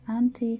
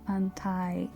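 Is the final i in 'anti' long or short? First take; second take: short; long. First: The final i is short. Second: The final i is long. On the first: The speaker calls it right. "we read uh, I as short I" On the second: The speaker calls it wrong. "You are more likely to want to pronounce them anti, which would be a mistake"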